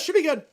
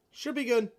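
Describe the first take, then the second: First: Quoting Lamar. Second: Said in the usual way. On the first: Retold or imitated. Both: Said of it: "Lamar says".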